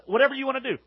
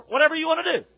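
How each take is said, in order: First: Dismissive shrug. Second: "Whatever" thrown out higher and louder, a careless shrug; louder dismissive. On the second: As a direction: toss off "Whatever you wanna do" loud and high. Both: Shown as a demonstration.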